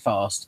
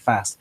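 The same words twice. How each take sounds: First: It is said in a British accent. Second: It is said in an American accent. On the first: "some British people will say" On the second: "some Americans will say"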